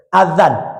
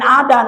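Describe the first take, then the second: First: The middle consonant is a soft TH-like sound. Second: The middle consonant is a D sound. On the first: The speaker calls it right. "Itu yang betul" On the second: The speaker calls it wrong. "Lain adan"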